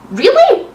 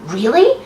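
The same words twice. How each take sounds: First: Higher, louder mock whimper; hammed-up whimpering question. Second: Said in the usual way. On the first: A narrator's reading. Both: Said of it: "he whimpered".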